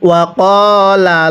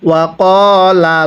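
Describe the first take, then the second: The two takes are said the same way.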